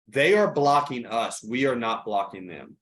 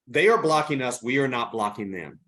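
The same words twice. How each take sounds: First: It is said slowly. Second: It is said at normal speed.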